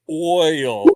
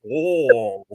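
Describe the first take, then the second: First: The vowel is a clear, distinct 'oy' glide. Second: The vowel is mushed together, sounding like 'oh'. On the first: This is the speaker's own New Jersey way. "I say oil, I hear the hard O I" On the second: This imitates how Southerners say it. "it's all kind of mushed together. I don't hear the oi. It's like oh"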